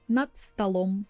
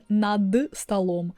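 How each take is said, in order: First: The first word ends in a voiceless t sound. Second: The first word ends in a voiced d sound. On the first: The speaker calls it right. "I'm saying над, над столом" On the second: The speaker calls it wrong. "you hear I'm not saying над столом"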